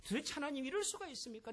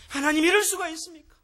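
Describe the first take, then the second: First: Softer, higher pleading protest with 이럴 falling; protesting to God. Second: Higher, louder anguished cry, 이럴 stressed; crying out to God. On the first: Retold or imitated. Job arguing with God in his suffering, a soft, higher challenge. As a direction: quietly challenge God, pressing on 이럴. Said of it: "하나님 앞에서도 그렇게 막 따지듯이 대들어요". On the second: Shown as a demonstration. The preacher shows the congregation how to lament before God, higher, louder anguished cry. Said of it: "하나님 앞에서 하세요".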